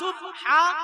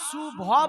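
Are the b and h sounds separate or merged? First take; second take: separate; merged. First: The b and h are said as separate sounds. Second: The b and h merge into one bh sound. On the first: The speaker calls it right. "সুব হা সুবহা" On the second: The speaker calls it wrong. "সুভা বলে কোনো শব্দ নাই"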